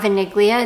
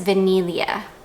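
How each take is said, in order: First: The G sound is pronounced in the middle. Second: The G sound is silent in the middle. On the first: The speaker calls it wrong. "you don't pronounce the G. It's not vaniglia" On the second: The speaker calls it right. "it's vanilla. So kind of like you're saying, uh, I don't know, vanilla"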